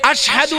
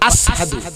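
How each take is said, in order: First: The word is said with a 'sh' sound. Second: The word is said with an 's' sound. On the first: This is how the call is normally said. The speaker calls it right. "আমরা বলি" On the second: This is how a man with a tongue problem said it. The speaker calls it wrong. "সিনের সিন কয়"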